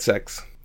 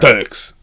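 First: The word is said lightly, without force. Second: The word is said with heavy force. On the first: "I think you could have hit it a bit hard" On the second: "Too hard"

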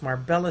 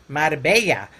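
First: It is said in an English accent. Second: It is said in a Latino Spanish accent.

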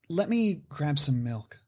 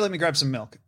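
First: It is said in an exaggerated, performed acting manner. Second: It is said plainly, like everyday casual speech. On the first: An actor is performing the line. "the actor person be like" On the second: A regular person is talking. "the person be like"

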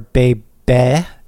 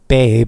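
First: The title is said with a Korean pronunciation. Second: The title is said with an English pronunciation. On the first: It sounds like the word for an infant. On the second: It sounds like the word for an attractive woman.

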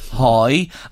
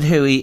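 First: The name is said as one syllable, hoy. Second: The name is said as two syllables, hoo-ee. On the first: This is how it is said in Drogheda. "If he was in Drogheda, we'd say Hoy" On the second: This is the local pronunciation from where he comes. "he pronounces it Huey"

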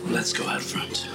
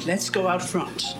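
First: Said in a sultry American newsreader accent. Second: Said in an Irish newsreader accent. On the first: The speaker calls it right. "I'm making her sound more sultry" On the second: The speaker calls it wrong. "Irish newsreaders"

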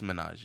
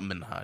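First: The h sound in the middle is silent. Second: The h sound in the middle is pronounced. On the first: The speaker calls it right. "It's [name], yeah" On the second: The speaker calls it wrong. "It's not Minhaj"

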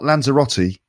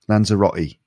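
First: The t is pronounced as a full t. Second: The t is replaced by a glottal stop. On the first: "Not Lanzarote" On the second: "You can hear the glottal stop there really clearly"

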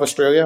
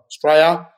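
First: It is said in a non-Australian accent. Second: It is said in an Australian accent.

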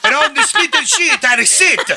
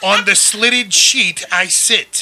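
First: It is said in a put-on Italian accent. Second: It is said in his regular accent.

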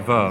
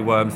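First: The word begins with a V sound. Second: The word begins with a W sound. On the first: "they say verms" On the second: "they don't say worms"

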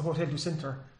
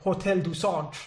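First: Centre is said with a plain English pronunciation. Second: Centre is said with a put-on French pronunciation.

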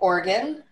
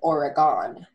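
First: The middle vowel is nearly silent. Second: The middle vowel is clearly pronounced. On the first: The speaker calls it right. "I believe it's a classic silent E" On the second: The speaker calls it wrong. "As pronounced in the show"

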